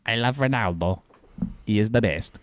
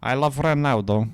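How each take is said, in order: First: Nasally put-on Portuguese accent; more nasal Portuguese accent. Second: Slow, higher-pitched Portuguese accent; louder, drawn-out imitation of a Portuguese accent. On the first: Correcting the imitation of the co-host, nasal Portuguese accent. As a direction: mimic a Portuguese speaker through the nose. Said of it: "you sound more nasally than that". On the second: Mimicking the co-host's Portuguese accent on request, slow put-on Portuguese accent. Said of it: "can I hear your Portuguese accent". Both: Shown as a demonstration.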